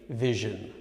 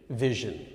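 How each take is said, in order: First: The middle consonant is a 'zh' sound. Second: The middle consonant is a 'zh' sound.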